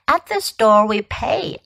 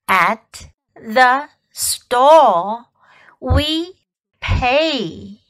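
First: It is said at normal speed. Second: It is said slowly.

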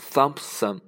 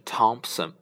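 First: The word begins with a th sound. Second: The word begins with a plain t sound. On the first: The speaker calls it wrong. "不是Thompson" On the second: The speaker calls it right. "而是Thompson"

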